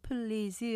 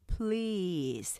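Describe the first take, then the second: First: The word is broken into three syllables. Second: The word is one long drawn-out syllable. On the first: The speaker calls it wrong. "한글로 표현하면 please 하기 때문에 3음절로 돼요" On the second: The speaker calls it right. "길게 please 이렇게 길게 하나의 음절로 발음하셔야 정확하게"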